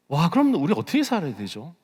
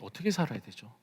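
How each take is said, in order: First: Higher-pitched, taken-aback wondering; dismayed question. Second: Much softer, sobered repeat of the question; hushed question. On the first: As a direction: ask it with an alarmed "wow". Alarmed question, then repeated low. (당혹스러워 높아진 물음) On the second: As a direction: let it sink in, asking very quietly. Same question after long silence. (낮게 읊조리는 조용한 물음) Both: Real, not acted.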